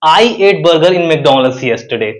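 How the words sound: The word "I" is stressed. "अगर मैं आई पर जोर दूं, आई को एम्फसाइज करूं"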